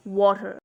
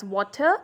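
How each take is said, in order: First: American "water", ending on a sounded R; American pronunciation. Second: "water" with a crisp T; British "water", T sounded, R dropped; British pronunciation. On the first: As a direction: say "water" the American way, as WAH-der. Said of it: "and in American". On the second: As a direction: say "water" the British way, as WAW-tuh. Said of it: "pronounce the word in British accent". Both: Shown as a demonstration.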